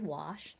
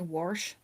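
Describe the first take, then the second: First: It is said without the local Colorado accent. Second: It is said with the local Colorado accent. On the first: "I do not say it that way. I say wash" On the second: "a lot of people here say wash"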